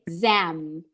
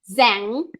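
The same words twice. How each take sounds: First: The lips close on the final M. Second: The lips stay open at the end. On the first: The speaker calls it right. "you say zam" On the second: The speaker calls it wrong. "Don't say zam"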